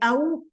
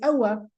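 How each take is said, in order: First: The word ends on the w sound. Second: The word ends with a short a after w. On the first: It means 'or'. "If you say أَوْ, that means or" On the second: It makes an exclamation or question. "with the waw, we're having a fatha"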